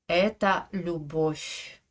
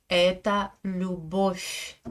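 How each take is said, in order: No difference in how they are said.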